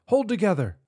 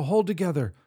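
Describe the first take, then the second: First: Higher, louder plea; desperate shout. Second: Pleading, loud; will it to hold; urging. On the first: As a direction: beg it with all you have. Urging the ship, louder. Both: Acted.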